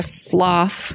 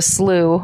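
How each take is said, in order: First: Slough said "sloff", rhyming with "cough". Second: Slough said "sloo", rhyming with "through". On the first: Offering the other pronunciation, slough as a slow "sloff". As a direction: stretch slough slowly with an f ending. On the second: Recalling the debated word for the co-host, slough as "sloo". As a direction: say slough with an "oo" ending, no f. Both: Shown as a demonstration. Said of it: "how it would be pronounced".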